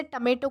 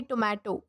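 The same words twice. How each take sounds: First: टमेटो said with a short first vowel, tuh-MAY-toe; टमेटो with a schwa start; correct pronunciation. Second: टोमेटो with a long O, toe-MAY-toe; the common wrong टोमेटो, long o at the start; टोमेटो said toe-may-to, as many do; wrong pronunciation. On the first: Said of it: "ना कि टोमेटो". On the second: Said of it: "ये गलत pronunciation है". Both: Shown as a demonstration.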